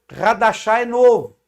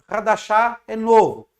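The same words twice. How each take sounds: Both takes have the same delivery.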